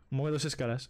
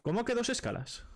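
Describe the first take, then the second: First: Said in the usual way. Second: High, incredulous question with the stress on que; genuinely taken aback, pitching ¿Cómo que way up; surprised. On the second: Real, not acted. Friend asks about the layovers in real disbelief. Hearing there were two layovers.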